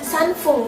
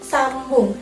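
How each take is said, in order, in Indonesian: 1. Suku kata kedua diawali bunyi f. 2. Suku kata kedua diawali bunyi b. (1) "Harusnya sanfung kan" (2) "tapi karena pengecualian dia jadi sambung"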